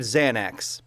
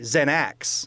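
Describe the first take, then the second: First: The stress falls where it is usually placed. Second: The stress falls on an unexpected syllable. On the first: The speaker calls it right. "if you say the word Xanax" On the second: The speaker calls it wrong. "Xanax isn't how you say it"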